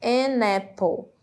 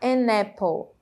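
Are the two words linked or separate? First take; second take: linked; linked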